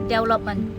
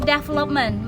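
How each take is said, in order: First: The letter v is said as w. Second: The letter v is said as v. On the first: "mereka bilangnya development... huruf V dibaca W" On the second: "ketika ada yang bilang development"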